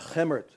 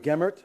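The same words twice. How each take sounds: First: The name begins with a breathy H-like sound. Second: The name begins with a hard G sound. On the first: "I'm pronouncing the name Gemert" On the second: "instead of Gemert"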